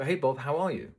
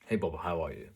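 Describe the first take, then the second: First: "Hey, Bob, how are you?" with the pitch climbing high at the end like an unsure question; rising question tune. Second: "Hey, Bob, how are you?" said lower, with the pitch dropping at the end; falling confident tune. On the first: Coach showing the anxious way to greet a client, with a rising question tune. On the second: Coach showing the confident way to greet a client, with a falling tune. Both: Shown as a demonstration. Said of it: "do I go up at the end of each sentence".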